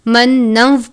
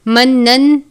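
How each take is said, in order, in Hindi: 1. अंत w की आवाज़ में मिल जाता है। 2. अंत n की आवाज़ के साथ बोला जाता है। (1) "मन्नव पढ़ना है वाव की आवाज़ के साथ" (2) "मन्नन नहीं पढ़ना"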